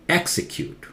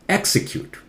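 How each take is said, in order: Both takes have the same delivery.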